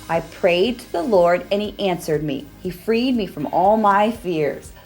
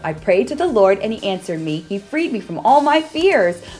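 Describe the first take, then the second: First: It is said a little faster. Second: It is said as fast as possible.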